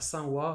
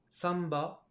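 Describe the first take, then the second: First: The counter begins with a w sound. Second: The counter begins with a b sound. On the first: This is how most people usually say it. "Les Japonais prononcent ça sanwa" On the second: This is a possible official reading few people know. "qui éventuellement peuvent se prononcer samba"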